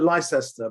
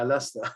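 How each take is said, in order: First: The name gets an American-style pronunciation. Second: The name gets the local British pronunciation. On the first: This is how outsiders say the name. The speaker calls it wrong. "Americans call it Leicester" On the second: This is how locals say the name. The speaker calls it right. "but it's like, yeah"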